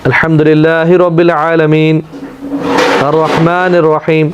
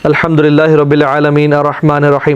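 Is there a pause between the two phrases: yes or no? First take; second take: yes; no. First: There is a pause between the two verses. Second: The two verses run together without a pause.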